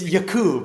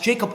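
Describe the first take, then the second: First: The name is pronounced a non-English way. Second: The name is pronounced the English way. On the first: The speaker calls it right. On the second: The speaker calls it wrong.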